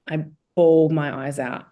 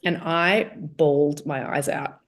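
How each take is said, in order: First: Bawled hit louder, whole line louder; stress on bawled. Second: Said in the usual way. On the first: Shown as a demonstration. Repeating it to her host, stress on bawled. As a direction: lean hard on bawled.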